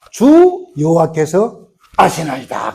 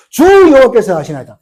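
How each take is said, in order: First: Very slow reverent reply; reverent answer. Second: Louder, higher proclamation; proclaimed answer. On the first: Ezekiel answering God, in a slow reverent voice. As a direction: draw the answer out humbly. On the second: Ezekiel's answer repeated for the congregation, in a loud proclaiming voice. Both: Acted.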